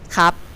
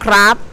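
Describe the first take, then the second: First: No R sound follows the first consonant. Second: An R sound follows the first consonant. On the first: "we lazy to say the R sound, so we say cup" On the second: "we add R sound in the middle"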